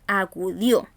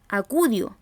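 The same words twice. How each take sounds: First: Acudió drawn out as a-cu-DIÓ, end stressed; stress on final syllable. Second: Acudió misstressed as a-CÚ-dio; stress on middle syllable. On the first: Teacher showing how we say acudió, final-syllable stress. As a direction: separate acudió and lean on the DIÓ. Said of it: "Cargamos la voz al final de la palabra". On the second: Teacher showing another wrong acudió, middle-syllable stress. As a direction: punch the CU of acudió, drop the ending. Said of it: "ni decimos acudió". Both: Shown as a demonstration.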